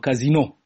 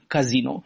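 First: The stress is on the last syllable. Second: The stress is on the second syllable. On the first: It refers to a gambling house. "stabilimentul de joc are accentul pe ultima silabă" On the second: It refers to a brothel. "Cu accentul pe I desemnează azi un bordel"

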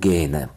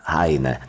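First: The surname is pronounced the Russian way. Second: The surname is pronounced the German way. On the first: This follows the usual Russian-language form. "мы в русской студии, да, поэтому... Поэтому Гейне" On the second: This follows German and Ukrainian usage. "я предпочитаю произносить его имя и фамилию так, как произносят немцы"

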